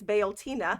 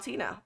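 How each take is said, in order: First: The name starts 'bee-ol' with three syllables. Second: The name starts 'bee-yowl' with three syllables. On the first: "It's Beoltina" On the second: "You actually have to like put the Yowl in there"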